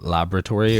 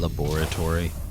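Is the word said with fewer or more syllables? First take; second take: fewer; more. First: The word is said with fewer syllables. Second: The word is said with more syllables.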